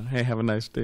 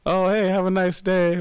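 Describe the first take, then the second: First: Mild, matter-of-fact imitation of a New Yorker; blunt New York delivery. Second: Much higher, louder, beaming "Oh, hey, have a nice day"; California big smile. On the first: Teacher imitates a blunt New Yorker, lightly gruff. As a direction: toss off "Hey, have a nice day" flatly, with no warmth. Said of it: "But they're saying it like that". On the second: Retold or imitated. Teacher mimics a cheery Californian, bright and smiling. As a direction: sing it out with a big fake smile. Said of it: "big smile on their face".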